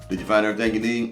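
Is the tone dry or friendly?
dry. It is said in a dead, dry tone.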